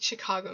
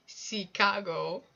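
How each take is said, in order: First: Said in the usual way. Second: "Chicago" as a slow, loud "see-KA-go"; imitated cute mispronunciation. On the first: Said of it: "The way he said Chicago". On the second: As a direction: stretch "Chicago", starting it with "see". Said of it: "The way he said Chicago was so cute".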